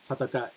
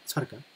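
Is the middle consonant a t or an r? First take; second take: t; r. First: The middle consonant is a t sound. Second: The middle consonant is an r sound. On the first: This is the standard form. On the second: This is the quicker spoken form.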